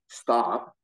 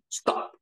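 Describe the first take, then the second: First: It is drawn out, sounding like a question. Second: It is short and clipped, sounding like a command.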